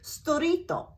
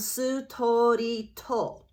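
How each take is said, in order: First: The syllables are said quickly and compressed. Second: Every syllable is drawn out very slowly. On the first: "They'll say storito" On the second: "I'm exaggerating, of course, because I'm going very slowly"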